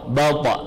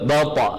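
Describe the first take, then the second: Both takes have the same delivery.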